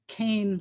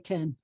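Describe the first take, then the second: First: The vowel is a long 'ay' sound. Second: The vowel is a short 'eh' sound. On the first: This is the pronunciation the speaker was taught. "I thought that it was Cain, like Cain and Abel kind of Cain" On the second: This is the modern Israeli pronunciation. "They'll say Ken, like the name of the doll"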